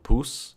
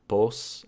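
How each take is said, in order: First: The vowel is a closed u sound. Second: The vowel is an open o sound. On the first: "can become pus" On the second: "the pos in the first syllable"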